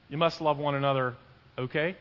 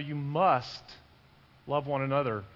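First: It sounds tentative, like asking for agreement. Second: It sounds firm, like a clear command.

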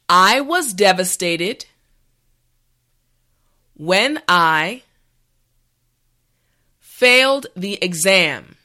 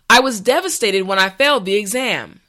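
First: The sentence is said slowly and carefully. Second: The sentence is said at a regular pace. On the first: "this time repeat after me" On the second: "the last time at a regular pace"

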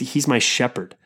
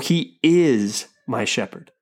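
First: The stress is on the word shepherd. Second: The stress is on the word is.

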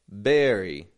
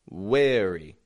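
First: The word begins with a b sound. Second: The word begins with a w sound. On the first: "I'm not giving it a b" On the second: "or a w"

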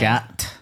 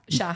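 First: The word ends with an audible t sound. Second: The word ends on the vowel, with no t. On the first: The speaker calls it wrong. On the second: The speaker calls it right.

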